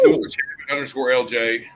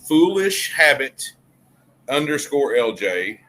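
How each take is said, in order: First: It is said at normal speed. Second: It is said slowly.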